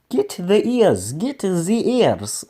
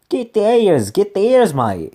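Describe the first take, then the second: First: It is said in a German-sounding accent. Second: It is said in a bad Australian accent.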